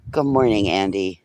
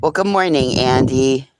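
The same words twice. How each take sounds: First: Said in the usual way. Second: Cheery greeting. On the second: Real, not acted. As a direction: greet him brightly like you're thrilled. Greeting the dog Andy.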